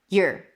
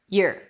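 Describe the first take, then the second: Both takes have the same delivery.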